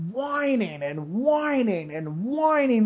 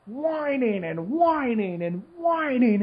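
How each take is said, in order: First: Mock the whiners with a slow, lilting drone; drawn-out mock whining. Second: Slow, lilting stretch of whining; drawn-out mock whining. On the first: Complaining about TV news, mocking whining, drawn out. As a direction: stretch whining out slowly in a sing-song tone. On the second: Mocking whiny Facebook posts, drawn out slowly. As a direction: drag the word whining out mockingly.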